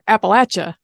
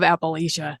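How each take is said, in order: First: It is said in the region's local pronunciation. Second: It is said in a non-regional pronunciation.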